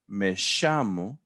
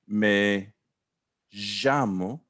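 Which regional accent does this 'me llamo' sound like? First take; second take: Argentine; Andean. First: The double L has an Argentine 'sh' sound. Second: The double L has an Andean pronunciation. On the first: The speaker is from Argentina. "you're from Argentina, aren't you?" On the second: The speaker is from the Andes. "that's like the Andes Mountains"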